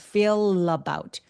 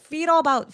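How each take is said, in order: First: A clear L is linked into about. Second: The L is weak and kept apart from about. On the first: The speaker calls it right. "윗니를 긁어내는 것으로 연음을 해주셔야 돼요" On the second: The speaker calls it wrong. "feel about이 아니라"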